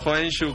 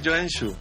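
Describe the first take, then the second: First: The name is said with Spanish-style pronunciation. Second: The name is said with Finnish-style pronunciation. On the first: The speaker calls it wrong. "no Joensuu como diría un españolito" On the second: The speaker calls it right. "Se pronuncia Joensuu"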